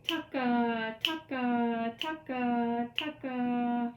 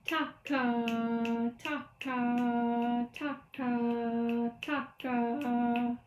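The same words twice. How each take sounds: First: Brisker chant, quick TA into held KA; steady quicker TA-KA rhythm; faster rhythm demo. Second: Short TA, long held KA, chanted; even, drawn-out TA-KA rhythm; slow rhythm demo. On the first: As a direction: chant the pattern a little faster. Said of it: "A little faster". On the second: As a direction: chant slowly, sustaining each KA. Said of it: "So again, slowly". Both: Shown as a demonstration.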